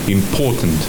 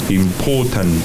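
No difference in how they are said.

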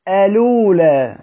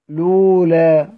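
First: The word begins with a vowel before the L. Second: The word begins directly with the L sound. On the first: The L is treated as silent, its original state. "بهمز الوصل على الأصل" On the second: The L is treated as carrying the transferred vowel. "أروح بادئ بحرف اللام على طول"

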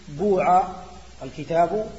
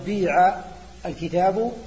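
First: The verb has a pure u vowel. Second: The verb has a pure i vowel.

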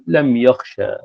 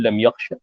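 First: The final vowel is drawn out long. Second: The final vowel is cut short. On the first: "بالألف" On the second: "تقف عليه باختلاس الحركة"

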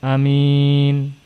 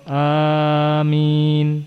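First: The first vowel is kept short. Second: The first vowel is drawn out long. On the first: "Dengan qasr pendek namun mimnya tidak ditasydid" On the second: "Yang pertama amin bil mad wa takhfifil mim"

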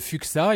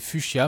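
First: The middle consonants sound like 'ks'. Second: The middle consonant sounds like 'sh'. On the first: The speaker calls it wrong. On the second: The speaker calls it right.

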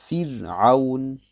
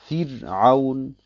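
Both takes have the same delivery.

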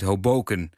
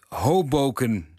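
First: The stress is not on the first syllable. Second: The stress is on the first syllable. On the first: The speaker calls it wrong. "Dus niet Hoboken. Zoals bij de stad in New Jersey" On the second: The speaker calls it right. "de klemtoon bij de Antwerpse deelgemeente Hoboken op de eerste lettergreep ligt"

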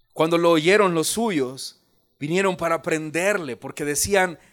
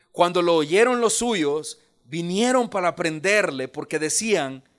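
The two takes are said the same way.

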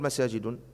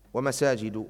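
First: The word ends with an added n sound. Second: The word ends without a final n sound. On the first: The speaker calls it wrong. "لا تقل مساجد، لا يوجد هذا في القرآن" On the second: The speaker calls it right.

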